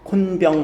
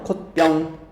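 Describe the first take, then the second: First: An n sound comes before the second syllable. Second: No n sound comes before the second syllable. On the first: The speaker calls it wrong. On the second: The speaker calls it right.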